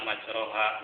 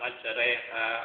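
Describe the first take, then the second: First: The vowel after r is a full open vowel. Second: The vowel after r leans toward e. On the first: The speaker calls it wrong. "kebanyakan dibaca majroha. Nah itu salah" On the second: The speaker calls it right. "harus dibaca mendekatkan ke tanda kasroh. Jadi dibaca majreha"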